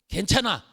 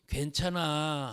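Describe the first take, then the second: First: It is said curtly, cut off sharply. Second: It is said warmly and softly.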